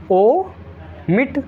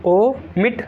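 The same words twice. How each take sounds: First: omit stretched very slowly with a high rising end; slow teacher drill on omit; drawn-out omit. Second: Said in the usual way. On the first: Shown as a demonstration. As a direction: draw out omit long and rising.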